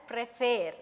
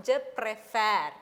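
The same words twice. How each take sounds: First: "préfère" with the second e kept closed, like "ay"; unchanged accent demo. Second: "préfère" with an open second e; changed accent demo. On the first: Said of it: "if we put the same action". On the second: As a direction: say "préfère" ending in open "fair". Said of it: "we have changed the accent". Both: Shown as a demonstration.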